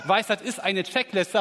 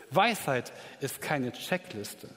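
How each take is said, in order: First: Louder, brighter turnaround on "eine Checkliste"; upbeat counterpoint to the solemn line; playful twist. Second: Slow and softer, let "keine" sink in heavily; hushed, weighty pronouncement; slow solemn statement. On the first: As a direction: flip the earlier line with a teasing lift. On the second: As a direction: lay down "Weisheit ist keine Checkliste" quietly and deliberately. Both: Shown as a demonstration. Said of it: "Oder vielleicht doch".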